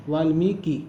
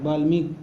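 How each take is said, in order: First: वाल्मीकि said with a clear v sound and a full final i, valmiki; वाल्मीकि spoken carefully as valmiki; वाल्मीकि said the right way, vaalmiki; correct pronunciation. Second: वाल्मीकि said with a b sound, as balmik; वाल्मीकि clipped to balmik, the common wrong way; वाल्मीकि as the people say it, balmik; wrong pronunciation. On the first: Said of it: "वाल्मीकि होता है". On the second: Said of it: "तो गलत है". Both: Shown as a demonstration.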